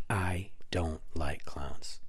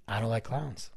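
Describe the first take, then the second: First: Low, half-whispered, word by word; slow, hushed emphasis. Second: Said in the usual way. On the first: Real, not acted. Podcaster confessing his dislike of clowns, slow and hushed. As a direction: spell it out slowly and quietly. Repeats line slowly for emphasis.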